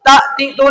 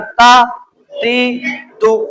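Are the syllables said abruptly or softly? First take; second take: abruptly; softly. First: The syllables are said with an abrupt jerk. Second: The syllables are said gently and smoothly. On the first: The speaker calls it wrong. "बगैर झटका दिए पढ़ना है। ता ती तू नहीं पढ़ना" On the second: The speaker calls it right. "यूं पढ़ना है नरमी के साथ"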